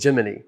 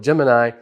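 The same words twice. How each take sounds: First: The word ends with an 'ee' sound. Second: The word ends with an 'eye' sound. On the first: This is the name of the space missions. "like Gemini Cricket" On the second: This is the name of the star sign. "the pronunciation of the astrological sign is usually Gemini"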